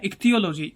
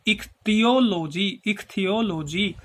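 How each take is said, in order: First: Said in the usual way. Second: ichthyology slowly split as इक-थियो-लो-जी; syllable by syllable. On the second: Shown as a demonstration. Teacher helping students memorise the term, ichthyology slowly split up. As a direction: break ichthyology into slow, separate parts.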